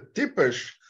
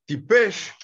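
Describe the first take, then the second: First: The word is said with a Yiddish pronunciation. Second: The word is said with a Hebrew pronunciation. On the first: It means a real idiot, said seriously. "this is such an idiot" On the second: It means plainly stupid. "Tipesh is in Hebrew, and this is stupid"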